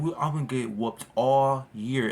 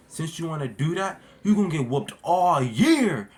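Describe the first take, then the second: First: Said in the usual way. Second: Stern dad. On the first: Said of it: "I still remember that". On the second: Retold or imitated. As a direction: lay down the punishment like a stern dad. Dad threatening punishment.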